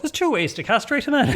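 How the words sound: It is spoken in a Cork accent. "now imagine that was in a Cork accent"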